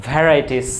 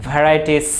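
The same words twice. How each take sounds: Both takes have the same delivery.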